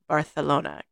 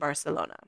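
First: The c is said with a lisped th sound. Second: The c is said with a plain s sound.

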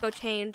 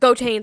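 First: It is said in a soft, gentle tone. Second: It is said in a harsh, angry tone. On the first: The speaker cares and is asking kindly. The speaker calls it right. "the other one's very more like gentle" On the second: The speaker is giving a controlling order. The speaker calls it wrong. "One of them is more like hot-headed, strict"

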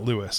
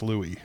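First: The name ends with an audible s sound. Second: The name ends in an ee vowel, no s. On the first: The speaker calls it wrong. "it's not Louis" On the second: The speaker calls it right.

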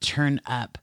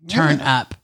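First: The two words are kept clearly separate. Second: The two words run together like one word. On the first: The speaker calls it right. "But turn up" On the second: The speaker calls it wrong. "it sounded like turnip"

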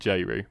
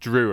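First: The name begins with a J sound. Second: The name begins with a D sound. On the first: This is how the speaker chooses to say it. The speaker calls it right. "I pronounce it Jeru" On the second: This is how the name's owners say it. The speaker calls it wrong. "which is pronounced Drew apparently"

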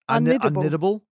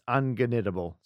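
First: The G is silent before the N. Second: A hard G sound comes before the N.

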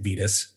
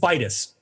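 First: The first vowel is not like 'vital'. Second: The first vowel sounds like 'vital'. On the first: The speaker calls it wrong. "I've been saying it wrong this whole time" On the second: The speaker calls it right. "like vital"

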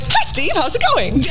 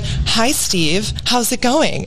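First: It is said in a bubbly, upbeat chatty voice. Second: It is said in a calm, controlled radio voice. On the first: The person is talking as in everyday life. "Instead of like" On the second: The person is performing a role. "when they go to act, they're like"

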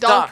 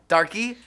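First: The name is said with one syllable. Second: The name is said with two syllables. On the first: The speaker calls it right. "No, it's dark" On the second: The speaker calls it wrong. "No one can pronounce that"

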